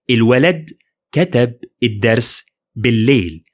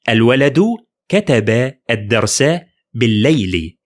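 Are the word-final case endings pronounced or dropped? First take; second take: dropped; pronounced. First: The words end in consonants without endings. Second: The vowel case endings are clearly pronounced. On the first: This is the everyday spoken form. "I made them all consonant" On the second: This is the formal standard form. "all case ending are very obvious"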